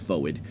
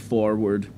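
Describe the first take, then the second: First: The first R is dropped, like 'foward'. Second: The first R is clearly pronounced. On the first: "it's forward" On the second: "it's not forward"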